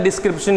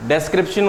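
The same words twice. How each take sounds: First: डिस्क्रिप्शन said as "dis-kripshan", first vowel a short i; wrong pronunciation. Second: डिस्क्रिप्शन said as "des-kripshan", first vowel an e; correct pronunciation. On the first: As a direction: show the mistake, डिस्क्रिप्शन with an i. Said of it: "pronunciation गलत तो spelling भी गलत". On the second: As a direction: model the right डिस्क्रिप्शन with an e. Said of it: "pronunciation सही तो spelling सही". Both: Shown as a demonstration.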